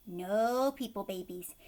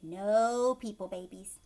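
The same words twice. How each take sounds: The two takes are said the same way.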